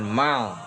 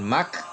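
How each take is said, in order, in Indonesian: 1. Suku kata ini berakhir dengan bunyi L. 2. Suku kata ini berakhir dengan bunyi K. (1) "bukan mal" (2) "bukan mak"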